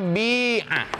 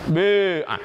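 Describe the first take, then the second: First: The first vowel is a clear i sound. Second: The first vowel is between i and u. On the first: "Yang pertama dengan bil kasri" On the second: "cara bacanya antara dhammah dengan kasrah"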